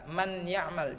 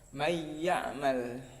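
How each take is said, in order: First: The n sound is pronounced clearly before y. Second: The n sound merges straight into the y. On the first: The speaker calls it wrong. "nunnya itu jangan dibaca jelas, man ya'mal, jangan" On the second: The speaker calls it right. "tetapi langsung masuk ke huruf ya"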